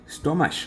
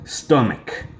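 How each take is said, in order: First: The word ends without a clear k sound. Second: The word ends with a strong k sound. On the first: The speaker calls it wrong. "I don't like students saying" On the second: The speaker calls it right. "I'm being emphatic with the k ending of this word"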